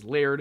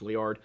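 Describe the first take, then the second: First: The name is said as one syllable, like 'laird'. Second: The name is said as two syllables, 'lee-ard'. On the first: The speaker calls it wrong. "I've been incorrectly pronouncing this time as Laird" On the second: The speaker calls it right. "It's Liard"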